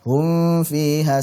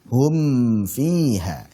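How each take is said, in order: First: The m sound is hidden and nasalized. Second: The m sound is pronounced clearly. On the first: The speaker calls it wrong. "jangan sampai dibaca hum fiha, hum fiha, salah" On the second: The speaker calls it right. "Hum fiha, hum fiha, jelas"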